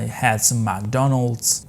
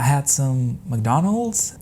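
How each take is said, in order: First: The voice is flat and low, in a monotone. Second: The voice is soft and pitched up higher. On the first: "not bro monotone voice like" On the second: "her voice will be pitched up a little bit"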